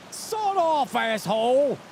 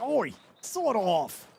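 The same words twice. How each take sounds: First: High, loud mock yell of an angry NPC; hostile NPC. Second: Slow, drawn-out mock call; calling out to NPC. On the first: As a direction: bark it like a rude game character. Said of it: "the N P C would look at you and be like". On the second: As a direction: stretch it out like hailing a stranger. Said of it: "You'd be like".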